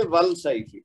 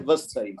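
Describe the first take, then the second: First: ول سیف with the lam sounded clearly; wrong al pronounced. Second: وس سیف with the lam merged into a doubled S; correct assimilation. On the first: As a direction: say ول سیف keeping the L of al audible. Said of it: "حرف قمری ہوتا تو پھر ہم پڑھتے". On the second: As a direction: say وس سیف joining the L into the S sound. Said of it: "حرف شمسی ہے تو اس لیے". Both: Shown as a demonstration.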